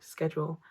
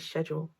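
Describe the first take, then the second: First: The word is said with an American pronunciation. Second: The word is said with a non-American pronunciation. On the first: "I think Americans say schedule" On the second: "I think we say schedule"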